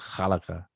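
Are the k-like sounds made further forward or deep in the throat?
throat. Its consonants are rasped deep in the throat. The speaker calls it right. "you have to dig deep in your throat"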